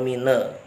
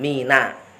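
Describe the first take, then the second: First: The word ends in an e vowel. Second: The word ends in a clear a vowel. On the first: The speaker calls it wrong. "atau mine" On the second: The speaker calls it right. "nun fathah ini juga harus dijelaskan"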